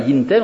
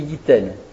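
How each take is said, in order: First: An n sound is heard before the t. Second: No n sound; the t is lengthened. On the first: The speaker calls it wrong. "On ne dit pas yin ten" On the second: The speaker calls it right. "on dit yitten"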